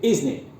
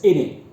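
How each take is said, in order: First: It is said fully, with the 's' and 'n' sounds. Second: It is reduced, with no 's' or 't' sounds. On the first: "It could be isn't it" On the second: "you shouldn't always pronounce it as in it"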